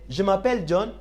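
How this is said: The voice rises at the end. It asks whether the speaker's name is John. "you need to raise up your voice"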